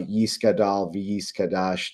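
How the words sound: It is said in Ashkenazic style, with s sounds. This is the older pronunciation used before the switch.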